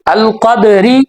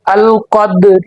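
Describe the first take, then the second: First: The final vowel is fully pronounced. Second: The final vowel is only faintly voiced. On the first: The speaker calls it wrong. "इस तरह नहीं पढ़ना" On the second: The speaker calls it right. "थोड़ी सी हमने आवाज देनी है, एक तिहाई"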